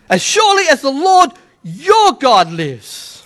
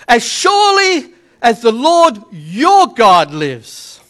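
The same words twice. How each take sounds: First: Slow reading leaning on "your"; deliberate, measured, "your" stressed. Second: "your" drawn out slow and leaned on; slow, deliberate reading with "your" stressed. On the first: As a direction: give "your" the weight of the sentence. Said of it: "That one word changes the meaning". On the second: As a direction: lean hard on "your" in "the Lord your God". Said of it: "Not my God, your God". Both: Shown as a demonstration.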